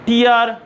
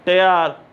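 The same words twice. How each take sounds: First: टीआर said as "teer", the teardrop word; tear as teer. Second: टेआर said as "tare", the ripping word, lower; tear as tare. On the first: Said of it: "टीआर का मतलब है आंसू ... टेआर". (टीआर, आंसू वाला उच्चारण) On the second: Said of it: "टेआर का मतलब है पाड़ना". (टेआर, फाड़ने वाला उच्चारण) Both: Shown as a demonstration.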